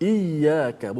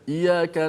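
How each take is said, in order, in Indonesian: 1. Bunyi Y dibaca panjang dan dobel. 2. Bunyi Y pendek dan tunggal.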